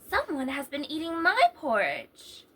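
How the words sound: It is said in a middle-sized voice.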